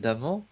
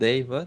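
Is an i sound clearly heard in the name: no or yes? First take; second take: no; yes. First: The name is said without a clear i sound. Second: The name is said with a clear i sound.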